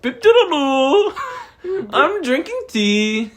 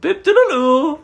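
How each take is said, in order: First: High, slow mock British accent, laughing; a British accent that drifts toward Indian; badly faked British accent, giggling; British accent sliding Indian. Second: High, loud mock British accent, laughing; hammed-up British accent through giggles. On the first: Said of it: "It goes Indian". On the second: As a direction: squeak out a silly British nonsense phrase. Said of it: "What about your British accent?".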